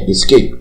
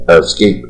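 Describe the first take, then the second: First: "escape" with a full, clear first vowel; careful dictionary "escape"; textbook escape. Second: "escape" with the first vowel reduced to a neutral "uh"; casual American "uh-scape". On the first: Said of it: "是一乎都念成呃啊". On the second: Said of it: "是一乎都念成呃啊，叫中性母音". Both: Shown as a demonstration.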